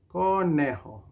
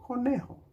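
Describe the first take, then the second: First: "Conejo" stretched out, first syllable held; say-along model. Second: Said in the usual way. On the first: Shown as a demonstration. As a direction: draw out "Conejo" so everyone joins in. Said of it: "Say it together now". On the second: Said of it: "we say".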